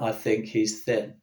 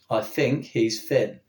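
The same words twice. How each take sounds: First: The th sounds are pronounced as th. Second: The th sounds are pronounced like f. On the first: "rather than" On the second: "they will say"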